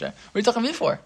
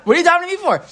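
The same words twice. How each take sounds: First: Higher, a mild impatient rebuke; hint of God scolding, still restrained; God rebuking Moshe. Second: Much higher, louder exasperated rebuke; exasperated God. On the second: Retold or imitated. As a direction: push it up like a fed-up God.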